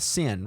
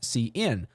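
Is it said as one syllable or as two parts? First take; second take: one syllable; two parts. First: It is said as one syllable, like sin. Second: It is said as the letter C plus in. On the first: The speaker calls it wrong. "I'll pronounce this incorrectly first" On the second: The speaker calls it right. "You want to say C out, C in"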